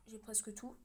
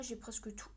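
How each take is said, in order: First: Said in the usual way. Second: Hushed, breathy aside; murmured under the breath; whispered. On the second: Shown as a demonstration. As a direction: whisper it to yourself.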